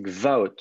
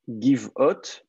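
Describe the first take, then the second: First: "gvaot" as gva-OT, no vowel between g and v; absolute-state vocalisation. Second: "give out" as giv-OT, short i after the g; construct-state vocalisation. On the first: Teacher corrects student's vowels, "gvaot" said gva-OT. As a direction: run g into v, then a-OT, in "gvaot". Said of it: "il faut le vocaliser comme ça". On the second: Teacher quotes student's vocalisation to correct it, "give out" said giv-ot. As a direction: say "give out" in two syllables, giv-ot. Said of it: "votre vocalisation, en fait". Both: Shown as a demonstration.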